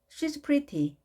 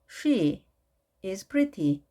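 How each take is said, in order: First: The verb is contracted onto the pronoun. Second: The verb is said as a full separate word.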